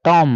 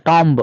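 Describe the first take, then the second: First: TOM ending on a held M, no B; silent B. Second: TOMB with a wrongly audible final B; B sounded. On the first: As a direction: let "tom" end on the M. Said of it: "letter B is silent". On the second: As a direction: pop the B ending "tomb". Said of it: "This is not tomb". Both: Shown as a demonstration.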